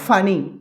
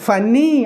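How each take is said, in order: First: The middle n sound is said once. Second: The middle n sound is held doubled. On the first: The speaker calls it right. "we have to pronounce only one letter" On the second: The speaker calls it wrong. "అలా కాదండి"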